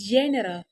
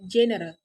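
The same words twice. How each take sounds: First: The first vowel is drawn out long. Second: The first vowel is kept short. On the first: The speaker calls it wrong. "the learners tend to pronounce it as general" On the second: The speaker calls it right. "instead of general"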